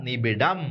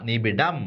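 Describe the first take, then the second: The two takes are said the same way.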